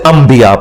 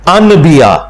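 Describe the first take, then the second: First: An m sound comes before the b. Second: An n sound comes before the b. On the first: This is how the word is recited. "हम उसे अंबिया पढ़ते हैं इकलाब की वजह से" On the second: This is how the word is written. "लफ्ज तो होता है अनबिया"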